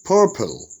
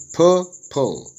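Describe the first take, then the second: First: Said in the usual way. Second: "purple" split as pur, pul; syllable by syllable. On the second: Shown as a demonstration. Teacher dividing a worksheet word, "purple" broken into syllables. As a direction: say "purple" in two separated syllables. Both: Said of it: "Syllable division".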